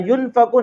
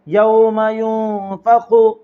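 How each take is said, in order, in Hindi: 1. नून की आवाज़ छुपाए बिना साफ़ बोली जाती है। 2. नून की आवाज़ को गुन्ना के साथ नाक में छुपाया जाता है। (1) "नहीं पढ़ना है" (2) "नूने साकिन के आवाज को नाक में छुपाकर गुन्ना और इक्फा के साथ पढ़ेंगे"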